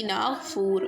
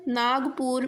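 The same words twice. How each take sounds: First: ناگپور said with Arabic gh for g and f for p; Arabic-style ناگپور, "ghf" in place of "gp"; Arabicized pronunciation. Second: Said in the usual way. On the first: Shown as a demonstration. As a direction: say ناگپور as "Naaghfoor". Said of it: "پا کی جگہ فا لکھیں گے". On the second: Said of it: "گاف کی جگہ غین لکھیں گے".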